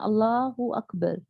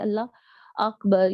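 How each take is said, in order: First: An 'u' vowel links Allah to Akbar. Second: Allah runs into Akbar with no vowel between. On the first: The speaker calls it right. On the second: The speaker calls it wrong. "ऐसे नहीं कहना कि अल्लाह अकबर या इकबर इस तरीके से गलती से अदा नहीं करना"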